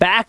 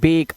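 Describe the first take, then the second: First: The vowel is a short 'a' sound. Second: The vowel is a long 'ay' sound. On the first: The speaker calls it wrong. "अब इसे बैक मत पढ़ना" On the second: The speaker calls it right. "तो ये इसे पढ़ेंगे बेक"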